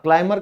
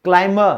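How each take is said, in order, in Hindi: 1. इस शब्द में b साइलेंट है। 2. इस शब्द में b साइलेंट है।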